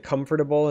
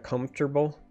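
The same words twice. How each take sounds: First: Every syllable is pronounced as it is spelled. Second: The word is shortened, with syllables reduced. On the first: The speaker calls it right. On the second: The speaker calls it wrong.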